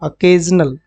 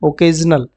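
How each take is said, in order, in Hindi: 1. पहला स्वर हल्का 'uh' वाला है। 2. पहला स्वर पूरा 'oh' वाला है। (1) "इसको क्या पढ़ेंगे, अकेजनल" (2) "उसको ओकेजनल नहीं पढ़ेंगे"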